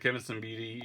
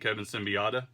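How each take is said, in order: First: The surname ends with a short 'bidi' sound. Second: The surname ends with an extra 'ota' sound. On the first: The speaker calls it right. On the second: The speaker calls it wrong.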